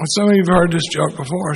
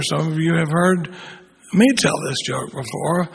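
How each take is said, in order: First: Said in the usual way. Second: Pause, then "me" lifted above the rest; stress on ME. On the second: Real, not acted. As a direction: set "me" apart after a pause, then drop away. Repeats line, adding a stressed me.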